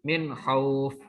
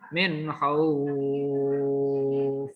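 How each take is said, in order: First: The vowel in khauf is held briefly. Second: The vowel in khauf is drawn out long. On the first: "boleh dua harokat ya" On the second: "Kalau panjang"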